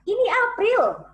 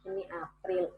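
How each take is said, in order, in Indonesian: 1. Diucapkan dengan tenaga yang kuat dan intonasi yang lebih hidup. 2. Diucapkan dengan datar dan tenaga suara yang kecil. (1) "kalau saya bedakan powernya" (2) "itu segitu aja powernya"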